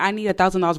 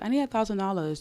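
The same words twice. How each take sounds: First: It is said in a harsh, demanding tone. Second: It is said in a soft, gentle tone. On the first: The request comes across as a demand. The speaker calls it wrong. "That sounds so aggressive" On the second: The request comes across as sweet but firm. The speaker calls it right. "it's so soft and gentle"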